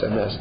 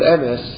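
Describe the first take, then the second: First: The stress is on the last syllable. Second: The stress is on the first syllable. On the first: The speaker calls it right. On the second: The speaker calls it wrong.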